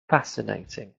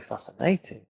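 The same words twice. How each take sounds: First: The stress is on the first syllable. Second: The stress is on the last syllable. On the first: The speaker calls it right. "that's why we say words like" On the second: The speaker calls it wrong. "but we don't say"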